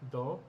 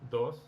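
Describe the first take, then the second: First: The final s sound is dropped. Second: The final s sound is pronounced. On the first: This is the local way of saying it. "we do not pronounce the letter S at the end of words" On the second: This is the standard way of saying it. "instead of dos"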